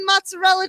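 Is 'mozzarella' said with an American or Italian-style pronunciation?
American. It is said with a plain American pronunciation. The speaker calls it right. "No, it's fucking mozzarella cheese"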